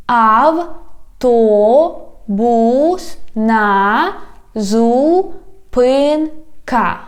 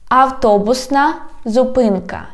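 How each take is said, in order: First: "Автобусна зупинка" very slow, every syllable apart. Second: Said in the usual way. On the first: Shown as a demonstration. Teacher has learners repeat, "Автобусна зупинка" slowly by syllables. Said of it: "divide it into syllables". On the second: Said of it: "I read the whole word".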